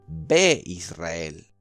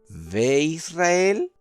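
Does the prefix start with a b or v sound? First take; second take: b; v. First: The prefix starts with a hard b sound. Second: The prefix starts with a soft v sound. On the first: "Como tiene el puntito dagesh, se pronuncia como la B larga" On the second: "B corta"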